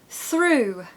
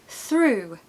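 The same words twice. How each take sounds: The two takes are said the same way.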